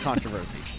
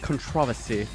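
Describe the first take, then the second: First: It is said with an American pronunciation. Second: It is said with a British pronunciation.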